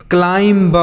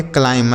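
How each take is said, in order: First: क्लाइंब with the final b sounded, klaimb; wrong pronunciation. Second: क्लाइंब said klaim, the b left silent; correct pronunciation. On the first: Teacher showing students the wrong way, b sounded. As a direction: pronounce the silent b in क्लाइंब on purpose, as the mistake. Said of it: "ऐसे नहीं पढ़ेंगे बच्चों". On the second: Teacher giving students the correct form, silent b. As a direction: drop the b at the end of क्लाइंब. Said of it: "बी silent होता है". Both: Shown as a demonstration.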